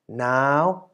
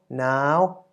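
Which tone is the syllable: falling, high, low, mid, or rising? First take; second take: high; high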